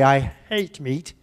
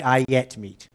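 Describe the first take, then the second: First: Put-on a touch of a French accent, "hate" said slowly; mock accent. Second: "I yet meat" with "hate" reduced to "yet"; native weak form. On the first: Teacher mimics French students with a slow, light French accent. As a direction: imitate the learner, slowly. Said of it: "my French students say". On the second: Shown as a demonstration. Teacher shows how natives reduce "hate" to "yet". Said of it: "we say".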